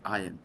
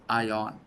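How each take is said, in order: First: The word sounds like 'iron', eye-urn. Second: The word sounds like 'eye-on', as written. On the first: The speaker calls it wrong. "It is not iron" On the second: The speaker calls it right. "it is ion"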